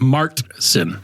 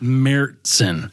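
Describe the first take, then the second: First: It is said with a hard T sound. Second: It is said without a hard T sound. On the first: This is the common American pronunciation. "in the United States, it's often pronounced as Märzen with a hard T sound" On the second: This is the correct original pronunciation. "is the correct pronunciation"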